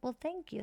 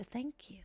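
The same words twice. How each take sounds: First: Said in the usual way. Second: Soft unvoiced whisper of thank you.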